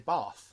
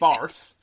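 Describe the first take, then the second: First: No R sound follows the vowel. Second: An R sound follows the vowel. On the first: "There's no R. You're right. It's a soft A" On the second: "I don't say Barth"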